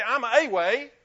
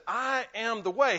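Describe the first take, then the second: First: "I'm a way." said much louder, with "a" leaned on as the wrong version; stress on a. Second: "I am the way." with "the" leaned on, louder; stress on the. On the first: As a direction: hit "a" in "I'm a way." to mock the mistaken claim. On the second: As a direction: land on "the" in "I am the way." as the only way. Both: Shown as a demonstration. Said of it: "He didn't say".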